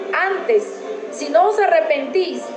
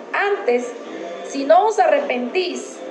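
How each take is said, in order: No difference in how they are said.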